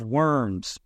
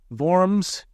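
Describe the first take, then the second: First: The word is said with an English pronunciation. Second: The word is said with a German pronunciation. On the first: "In English, the title of this painting looks like" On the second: "pronounced Worms in the German language"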